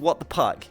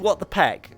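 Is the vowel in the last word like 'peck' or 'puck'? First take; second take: puck; peck. First: The last word has the vowel of 'puck'. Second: The last word has the vowel of 'peck'. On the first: The speaker calls it right. "It's called What the Puck" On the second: The speaker calls it wrong. "It's not called What the Peck"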